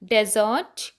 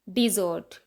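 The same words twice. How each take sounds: First: desert stressed on DE; desert: first syllable hit. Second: dessert stressed on ZERT; dessert: light di, heavy ZERT; stress on second syllable. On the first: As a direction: say desert as DE-zert, the desert. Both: Shown as a demonstration. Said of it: "तो difference देखो".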